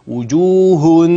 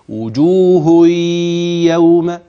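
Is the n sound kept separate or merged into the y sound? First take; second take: separate; merged. First: The n sound is pronounced separately, without merging. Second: The n merges into the y with nasalization. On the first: The speaker calls it wrong. "ده كده مش ادغام" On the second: The speaker calls it right. "الادغام هكذا"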